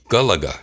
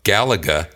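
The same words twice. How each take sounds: First: The vowels are said as pure 'ah' sounds. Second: The vowels are said as English-style vowels. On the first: The speaker calls it right. "It should be Galaga" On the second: The speaker calls it wrong. "That's the game I'm saying wrong"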